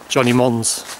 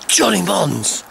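First: The name is said plainly, without excitement. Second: The name is exclaimed loudly and dramatically.

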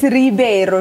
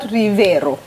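First: The middle consonant is a b sound. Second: The middle consonant is a v sound. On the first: The speaker calls it right. "So there is no V, it's Riveiro" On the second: The speaker calls it wrong. "Not Riveiro"

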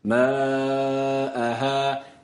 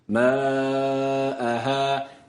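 First: The long vowels sound between e and a. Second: The same.

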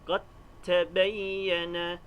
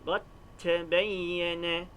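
No difference in how they are said.

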